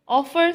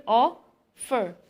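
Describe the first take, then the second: First: Said in the usual way. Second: OF... fer, in two beats; stressed first syllable. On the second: Shown as a demonstration. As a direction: offer split as a loud OF, pause, then fer. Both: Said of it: "stress is on first syllable".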